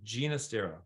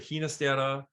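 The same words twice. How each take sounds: First: The name is pronounced the Italian way. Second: The name is pronounced a non-Italian way. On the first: This is how the composer himself said his name. "he himself preferred the Italian pronunciation" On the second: This is how most people in music say the name. "many in the musical world say Ginastera"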